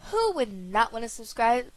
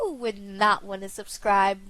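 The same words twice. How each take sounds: First: Said in the usual way. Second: Voice crack. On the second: Real, not acted. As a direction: voice cracking mid-question. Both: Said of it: "What was that voice crack?".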